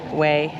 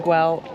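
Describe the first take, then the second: First: The name begins without a G sound. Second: The name begins with a hard G sound. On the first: "way, I believe, is the Catalonian pronunciation" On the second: "I've heard people say Güell"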